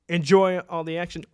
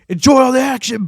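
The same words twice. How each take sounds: First: It is said in the speaker's ordinary accent. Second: It is said in an imitated Scottish accent.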